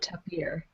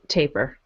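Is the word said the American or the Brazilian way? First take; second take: Brazilian; American. First: It is said the Brazilian way. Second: It is said the American way.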